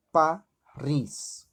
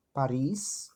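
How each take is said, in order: First: "Paris" split as pa, then a held RIS; lengthened stressed syllable. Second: Said in the usual way. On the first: Shown as a demonstration. Teacher showing the tonic syllable, "Paris" broken before a drawn-out RIS. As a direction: say "Paris" in two parts, stressing the second. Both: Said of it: "elas sempre vão ter uma perduração".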